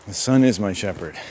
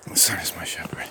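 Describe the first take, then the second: First: Said in the usual way. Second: Low, soft whisper; whispered mantra. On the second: Real, not acted. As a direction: whisper it to yourself like a private prayer. Same mantra, repeated under breath.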